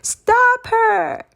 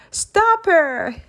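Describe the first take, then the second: First: Much higher, much louder shriek; full-blown scream. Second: Higher, louder screamed order. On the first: Mister Creeper shrieking after Amelia a second time, full scream. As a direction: scream it with every ounce. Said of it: "with even more exclamation mark". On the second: Mister Creeper screaming as Amelia escapes, loud scream. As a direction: scream it as she flees. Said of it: "screamed Mister Creeper". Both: Acted.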